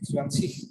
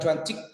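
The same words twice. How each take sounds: First: The word ends in a soft ch sound. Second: The word ends in a hard k sound. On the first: The speaker calls it right. "tapi cuancik" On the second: The speaker calls it wrong. "Bukan cuancik"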